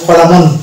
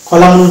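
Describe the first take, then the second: The two takes are said the same way.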